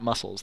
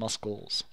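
First: The c in the middle is silent. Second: The c in the middle is pronounced. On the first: The speaker calls it wrong. "They're not muscles" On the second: The speaker calls it right. "You pronounce the C"

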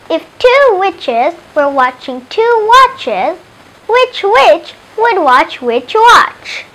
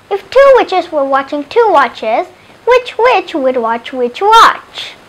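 First: It is said slowly. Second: It is said faster.

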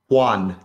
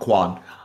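First: The name begins with an H sound. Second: The name begins with a K sound. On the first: The speaker calls it right. "it's with a H, not a Q" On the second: The speaker calls it wrong. "not a Q"

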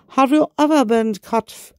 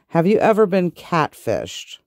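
First: It is said in a put-on French accent. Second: It is said in the speaker's normal accent.

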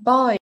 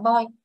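First: The vowel is reduced and dips down slightly. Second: The vowel stays flat, in a Vietnamese way. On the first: The speaker calls it right. "nó sẽ giảm âm một xíu và trùng lại boy" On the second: The speaker calls it wrong. "đa số người người Việt mình học tiếng Anh sai chỗ là nhiều bạn đọc boy"

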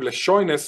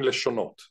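First: The stress falls on the second-to-last syllable. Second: The stress falls on the last syllable. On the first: This is not how Israelis say the word. The speaker calls it wrong. "לא אומרים לשוינס" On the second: This is how Israelis actually say the word. The speaker calls it right. "אומרים לשונות"

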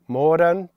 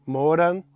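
Both takes have the same delivery.

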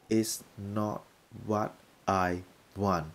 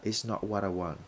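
First: It is said slowly with the words separated. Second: It is said fast with the words linked.

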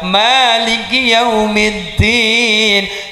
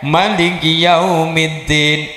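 First: The vowel after the m is held long. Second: The vowel after the m is cut short. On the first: This follows the Hafs reading. "Mimnya dibaca panjang" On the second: This follows the Warsh reading. "mimnya pendek"

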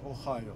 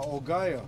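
First: The middle consonant is an H sound. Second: The middle consonant is a hard G sound.

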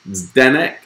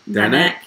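First: The name begins with a z sound. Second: The name begins with a d sound. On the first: "is it pronounced Zdenek" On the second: "or is it silent Z?"

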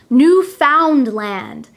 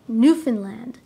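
First: It is pronounced the way many non-Canadians say it. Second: It is pronounced the way Canadians say it. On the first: The speaker calls it wrong. "many people who are not Canadian try to pronounce this word as Newfoundland. We do not pronounce it that way" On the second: The speaker calls it right. "We say Newfoundland"

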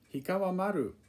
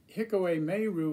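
First: It is said with Japanese pronunciation. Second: It is said with American pronunciation. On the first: The speaker calls it right. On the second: The speaker calls it wrong.

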